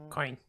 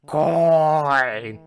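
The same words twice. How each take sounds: First: Said in the usual way. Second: High, loud, long-held bellow; crazed drawn-out yell; shouting. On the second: Acted. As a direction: bellow it, stretching the vowel. Escalating shouting exchange with coin.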